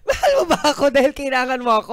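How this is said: It is spoken in a happy tone. "happy ko"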